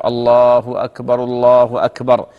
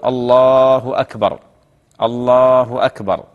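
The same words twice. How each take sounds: First: Slow adhan call, both phrases run together; drawn-out takbirs in one breath; takbirs joined together. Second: Slow drawn-out adhan call, each phrase on its own; separate, sustained muezzin takbirs; takbirs called separately. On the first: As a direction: link الله أكبر straight into الله أكبر without a pause. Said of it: "يجمع التكبيرة". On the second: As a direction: stretch الله long, pause between the two calls. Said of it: "مفردة، يعني كل يق-، يؤذن يقول". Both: Shown as a demonstration.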